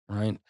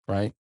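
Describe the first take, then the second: Both takes have the same delivery.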